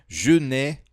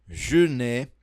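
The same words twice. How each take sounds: No difference in how they are said.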